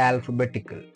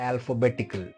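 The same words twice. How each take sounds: Both takes have the same delivery.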